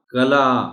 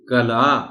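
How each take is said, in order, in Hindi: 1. पहला स्वर 'a' है। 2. पहला स्वर 'a' है।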